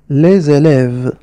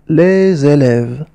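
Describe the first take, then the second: No difference in how they are said.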